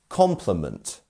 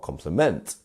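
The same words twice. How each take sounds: First: The stress is on the first syllable. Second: The stress is on a later syllable. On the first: The speaker calls it right. "It's our first syllable" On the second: The speaker calls it wrong. "or compliment"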